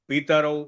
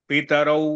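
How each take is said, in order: Both takes have the same delivery.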